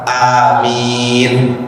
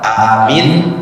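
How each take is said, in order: First: The vowels are held somewhat longer, up to four counts. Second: The vowels are held briefly, two counts each. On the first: "Boleh dua harokat, empat harokat" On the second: "dua harokat, dua harokat"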